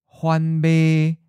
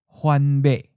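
First: The last syllable is mid-pitched, level and not cut off. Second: The last syllable is mid-pitched and cut off abruptly. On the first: "Mid flat" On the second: "Mid stop"

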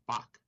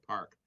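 First: The name is said with a Korean pronunciation. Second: The name is said with an English pronunciation. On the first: "it's Bak if you pronounce it in Korean" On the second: "We call it Park"

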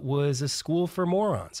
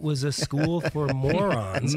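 First: The phrase is spoken at a normal pace. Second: The phrase is spoken more slowly and deliberately.

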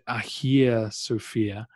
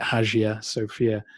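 First: The name is pronounced the Greek way. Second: The name is pronounced the English way. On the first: "The Greeks who built it would now call it" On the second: "We would read it"

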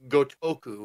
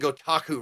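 First: The second vowel is an 'o' sound. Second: The second vowel is an 'a' sound. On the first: The speaker calls it right. "It's Gotoku" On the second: The speaker calls it wrong. "I've been saying Gotaku wrong"

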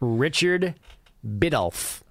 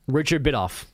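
First: The name is said at a normal pace. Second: The name is said more quickly.

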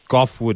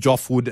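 First: The name begins with a hard G sound. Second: The name begins with a J sound. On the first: The speaker calls it right. "Goffwood is spot on" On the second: The speaker calls it wrong. "I called you Joffwood early on"

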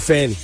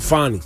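First: The first vowel is a flat 'a' sound. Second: The first vowel is an open 'ah' sound. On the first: This is how most people say her name. "But most people just call her Fanny" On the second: This is how she says her own name. "The way she pronounces it"

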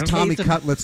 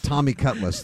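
First: The second word ends with a clear 'lets' sound. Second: The second word sounds like the car name 'Cutlass'. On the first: The speaker calls it right. "his name is Tommy Cutlets" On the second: The speaker calls it wrong. "not Tommy Cutlets. They didn't name him after the Oldsmobile"

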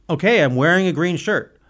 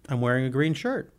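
First: It is said in an annoyed tone. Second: It is said in a neutral tone.

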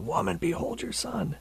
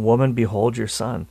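First: It is cried out loudly with strong emotion. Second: It is said in a calm, even voice.

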